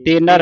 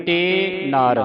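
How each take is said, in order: First: ਤੇ ਨਰ run together, short vowel in nar; wrong reading demo. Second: ਤੇ ਨਾਰ as two drawn-out words, long "aa"; words separated. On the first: Teacher shows the reading to avoid, ਤੇ ਨਰ joined and short. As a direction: say ਤੇ ਨਰ quickly with a short "a". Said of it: "ਤੇ ਨਰ ਨਹੀਂ ਬੋਲਣਾ". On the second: Teacher models it for students, ਤੇ ਨਾਰ said separately. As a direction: hold ਤੇ, then a long ਨਾਰ apart from it. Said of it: "ਵੱਖਰਾ ਵੱਖਰਾ". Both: Shown as a demonstration.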